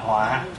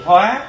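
First: The word has a heavy low glottalized tone. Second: The word has a high rising tone. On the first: It means disaster. "thành dấu nặng gọi là họa" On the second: It means to transform. "Bỏ dấu sắc thì hóa"

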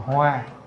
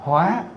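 First: The syllable has a flat level tone. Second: The syllable has a high rising tone. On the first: "lấy dấu huyền ra thành Hoa" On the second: "Để dấu sắc vô thành Hóa"

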